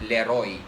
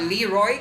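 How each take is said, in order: First: The name is said with a Filipino pronunciation. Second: The name is said with an American English pronunciation. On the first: The speaker calls it right. "we pronounce it as Leroy" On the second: The speaker calls it wrong. "that's American English"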